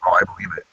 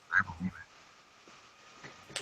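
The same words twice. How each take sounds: First: Said in the usual way. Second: Slow breathy whisper. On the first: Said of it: "repeated then whispered". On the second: Shown as a demonstration. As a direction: whisper it slowly, drawn out. Repeat turned to whisper.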